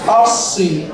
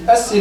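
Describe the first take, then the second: First: The s sound is emphatic and heavy. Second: The s sound is plain and light. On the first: The speaker calls it right. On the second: The speaker calls it wrong.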